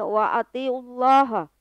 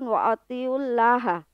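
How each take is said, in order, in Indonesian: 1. Huruf l pada Allah berat dan tebal. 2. Huruf l pada Allah ringan dan tipis.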